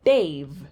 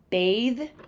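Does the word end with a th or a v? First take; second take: v; th. First: The word ends with a v sound. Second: The word ends with a th sound.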